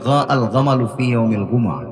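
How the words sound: The letter jim is said with a hard g sound.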